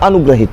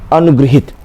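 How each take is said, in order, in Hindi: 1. बीच का अक्षर 'gra' की तरह बोला जाता है। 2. बीच का अक्षर 'gri' की तरह बोला जाता है। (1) "बोलिए ही मत अनुग्रहित" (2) "हमेशा बोलिए अनुग्रहित"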